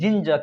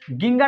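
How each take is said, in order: First: The word begins with a j sound. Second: The word begins with a hard g sound. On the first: The speaker calls it right. "क्या पढ़ेंगे? जिंजर" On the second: The speaker calls it wrong. "इसे गिंगर नहीं पढ़कर"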